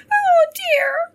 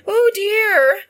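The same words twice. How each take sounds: First: Very high, loud squeaky hare voice; tiny creature's falsetto wail; little hare crying. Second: Loud, high cry of dismay; acted wail in a raised voice. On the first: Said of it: "she cried". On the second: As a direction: exclaim it as the startled wife. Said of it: "cried she". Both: A narrator's reading.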